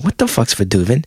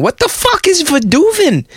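First: The question sounds warm and smiling. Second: The question sounds brash and showy. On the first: It comes across as curious and good-natured. The speaker calls it right. "leaned in and with a smile on my face" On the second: It comes across as rude and classless. The speaker calls it wrong. "putting on a show on the podcast"

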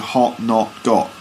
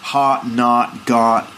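First: The vowel is a short, rounded o sound. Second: The vowel is an open, unrounded ah sound. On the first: "we say hot, not, got" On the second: "Instead, they do a kind of ah sound"

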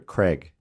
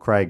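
First: The name is said in an American accent. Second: The name is said in an Australian accent. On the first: "if he's from America" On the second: "if you're an Aussie"

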